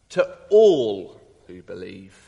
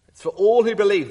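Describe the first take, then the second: First: All drawn out, slow and weighted; ALL stretched long; stress on all. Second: ALL punched louder; all said loud and strong; stress on ALL. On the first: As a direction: lean on the word all, slow. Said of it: "emphasis on Jesus". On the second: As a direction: hit the word all hard. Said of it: "The word all is". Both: Shown as a demonstration.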